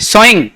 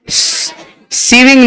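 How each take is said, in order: First: The first vowel sounds like 'so'. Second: The first vowel sounds like 'see'. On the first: The speaker calls it right. "टॉ की जगह सौ करो, सोइंग" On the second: The speaker calls it wrong. "सीविंग नहीं"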